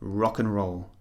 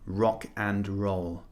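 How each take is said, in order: First: The word 'and' is reduced to a short 'n'. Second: The word 'and' is fully pronounced with its D. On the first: The speaker calls it right. "We say rock and roll. The and just becomes n" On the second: The speaker calls it wrong. "We never say"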